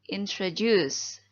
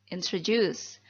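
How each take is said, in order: Both takes have the same delivery.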